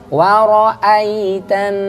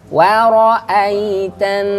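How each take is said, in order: No difference in how they are said.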